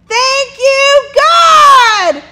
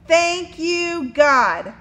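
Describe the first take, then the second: First: It is said very loudly. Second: It is said at normal volume.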